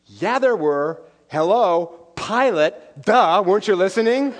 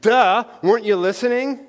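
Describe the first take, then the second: First: Lightly voiced cheeky kid, a bit louder; a hint of a smug little boy; six-year-old Noah. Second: Mock sass. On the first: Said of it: "And Noah said". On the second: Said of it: "That is a profound theological comment".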